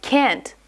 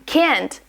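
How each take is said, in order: First: "can't" with a front vowel, as in "cat"; American can't. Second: Second "can't" with an open "ah" vowel; broad-A can't. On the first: Teacher showing learners the American way, "can't" with front vowel. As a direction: say "can't" as "kant" with an American short A. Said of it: "with a soft vowel". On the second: Teacher showing learners what to avoid, "can't" with broad A. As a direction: say "can't" as "kahnt". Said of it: "instead of saying can't as can't". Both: Shown as a demonstration.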